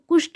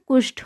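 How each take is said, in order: First: The final t sound is unaspirated. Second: The final t sound is aspirated. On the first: The speaker calls it wrong. "कुष्ठ नहीं" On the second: The speaker calls it right. "कुष्ठ होता है"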